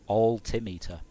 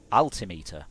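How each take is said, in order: First: "Altimeter" starting with a rounded "awl"; rounded first vowel. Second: "Altimeter" starting with an open "al", lower in pitch; open first vowel. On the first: Comparing pronunciations, "Altimeter" with a rounded "awl" start. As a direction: say "Altimeter" with AL as in "all". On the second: Comparing pronunciations, "Altimeter" with an open "al" start. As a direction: say "Altimeter" with AL as in "pal". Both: Shown as a demonstration. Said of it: "pronunciation and cadence and stresses".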